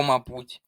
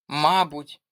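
First: Мабуть with stress on the second syllable, ма-БУТЬ. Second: Мабуть with stress on the first syllable, МА-буть. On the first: (наголос на другий склад у мабуть) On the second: (наголос на перший склад у мабуть) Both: Shown as a demonstration. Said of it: "тут подвійний наголос".

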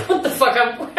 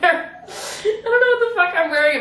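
First: Laughing. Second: Much higher, laughing almost to tears; high laughing cry. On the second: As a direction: let it crack into helpless laughter, way up high. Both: Real, not acted. Laughing at her outfit.

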